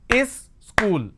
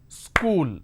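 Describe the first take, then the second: First: An extra vowel comes before it, making two syllables. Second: It is said as one syllable. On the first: The speaker calls it wrong. "School has two syllables" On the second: The speaker calls it right. "School has only one syllable"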